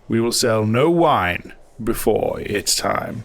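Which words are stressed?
no wine. Extra stress falls on no wine.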